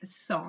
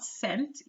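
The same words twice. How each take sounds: First: It is pronounced the French way. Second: It is pronounced like the English word cent. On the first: The speaker calls it right. "the pronunciation is cent" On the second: The speaker calls it wrong. "not cent, even though it is spelled like cent in English"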